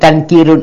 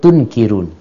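First: The first vowel is an open 'a' sound. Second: The first vowel is a rounded 'u' sound. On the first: The speaker calls it wrong. "Ini tankirun" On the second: The speaker calls it right. "ini dibacanya tunkirun"

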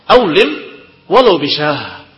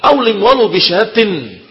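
First: The last word ends in an h sound. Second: The last word ends in a t sound. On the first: The phrase stands at a pause. "Kalau berhenti" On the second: The phrase continues into following speech. "Tetapi kalau kita mau lanjutkan"

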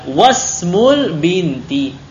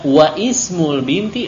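First: The initial vowel of ismul is dropped and linked. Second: The initial vowel of ismul is fully pronounced. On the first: The speaker calls it right. "Kalau di tengah hamzah wasal itu tidak dibaca" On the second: The speaker calls it wrong. "bukan begitu"

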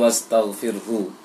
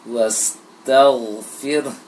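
First: The word ends with an added u vowel. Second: The word ends with a light puff of breath. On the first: The speaker calls it wrong. "jangan dibaca dhammah hunya, jangan wastaghfirhu" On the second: The speaker calls it right. "diberikan aliran angin sedikit"

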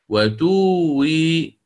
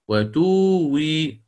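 The two takes are said the same way.

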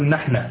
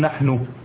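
First: The word ends with a final a vowel. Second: The word ends with a final u vowel. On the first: "وهو عند اللبنانيين مبني على الفتح" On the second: "مبني على الضم"

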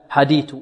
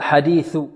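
First: The final consonant is not made between the teeth. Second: The final consonant is made between the teeth. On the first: The speaker calls it wrong. "لا نقول هل أتاك حديث، حديث لا" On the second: The speaker calls it right. "حديث ثو، ثاء مثلث تخرج الثاء من طرف اللسان مع طرف الثنايا العليا"

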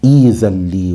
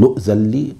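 First: The word begins with a long 'ee' sound. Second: The word begins with an 'oo' sound. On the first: "إذا بدأنا بها نقول إيذلي" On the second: "ومنهم من يقول أؤذلي"

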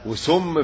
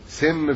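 First: The word has its classical Arabic vowel. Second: The word has its colloquial Egyptian vowel. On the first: This is the standard written-language form. "وسم في العربية بتاعتنا" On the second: This is the everyday spoken form. "سم في اللغة بتاعتنا الدارجة"

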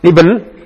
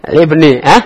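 First: The word ends on a consonant, no final vowel. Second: The word ends on a short i vowel. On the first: The speaker calls it wrong. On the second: The speaker calls it right.

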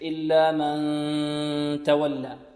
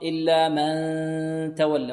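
First: The n sound resonates through the nose. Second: The n sound is made through the mouth. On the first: The speaker calls it right. "أكثرهم من الخيشوم" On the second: The speaker calls it wrong. "إلا من صوت من الفم ... وهذا خطأ"

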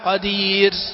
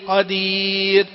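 First: The final r trails off with audible breath. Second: The final r ends cleanly without breath. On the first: The speaker calls it wrong. "الصوت اللي في آخر الراء هذا، ها قدير، هذا الهمسة هذا غلط" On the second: The speaker calls it right. "الراء ليست مهموسة"

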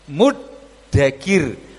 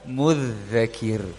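First: The middle consonant is a plain d sound. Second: The middle consonant is a voiced th sound. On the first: The speaker calls it right. "Sekarang dengan dal" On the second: The speaker calls it wrong. "bukan dengan dal"

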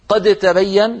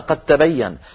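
First: The d is pronounced separately with a bounce. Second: The d merges fully into the following t. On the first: The speaker calls it wrong. "لضحكوا وقالوا ماذا يقول هذا" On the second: The speaker calls it right. "بل يجعلونها تاء ويدغمونها في التاء التي بعدها"

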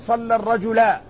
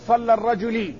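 First: The last word ends with an a vowel. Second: The last word ends with an i vowel. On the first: "لا تقل صلى الرجلا" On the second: "ولا تقل صلى الرجلي"

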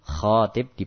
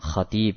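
First: The first vowel is long, the second short. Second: The first vowel is short, the second long. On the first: Someone is proposing marriage. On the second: Someone is delivering a sermon.

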